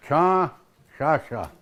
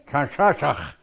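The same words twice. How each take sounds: First: Chanshasha, slow, open final a, no ch; without final ch. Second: Chanshashach ending in a rasped ach; with final ch. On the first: Elder showing the shorter variant, slowly drawn out. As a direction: draw out Chanshasha slowly, dropping the ch. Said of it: "You can say Chanshasha too". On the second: Elder giving his preferred form, final ch rasped. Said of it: "I always say Chanshashach". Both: Shown as a demonstration.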